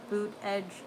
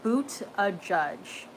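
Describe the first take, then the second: First: The name is said as two syllables. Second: The name is said as three syllables. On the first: The speaker calls it wrong. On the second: The speaker calls it right.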